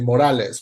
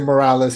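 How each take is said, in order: First: The name is said with a Spanish pronunciation. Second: The name is said with an English pronunciation. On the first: The speaker calls it right. "which is the right way to say it" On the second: The speaker calls it wrong. "he doesn't say Morales"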